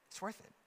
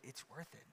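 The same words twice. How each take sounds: First: Said in the usual way. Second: Quiet. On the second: Shown as a demonstration. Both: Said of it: "we can encourage each other and say".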